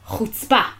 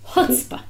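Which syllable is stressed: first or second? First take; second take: second; first. First: The stress is on the second syllable. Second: The stress is on the first syllable. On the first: "You hit the second syllable" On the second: "in America, the accent's on the first syllable"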